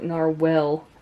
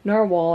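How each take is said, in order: First: The last syllable sounds like 'whale'. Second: The last syllable sounds like 'wall'. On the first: The speaker calls it wrong. "it's not narwhal. There's no E at the end" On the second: The speaker calls it right. "Narwhal, I think"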